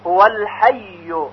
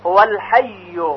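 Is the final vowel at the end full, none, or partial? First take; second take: full; full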